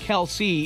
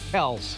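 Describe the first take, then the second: First: The name is said with two syllables. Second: The name is said with one syllable. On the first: The speaker calls it wrong. "it's not pronounced Kelsey" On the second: The speaker calls it right. "it's just K E L S, Kels"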